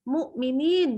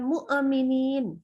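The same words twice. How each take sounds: First: The hamzah stops cleanly with no added vowel. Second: A short extra vowel bounces after the hamzah. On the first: The speaker calls it right. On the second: The speaker calls it wrong.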